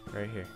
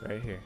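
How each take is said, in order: Both takes have the same delivery.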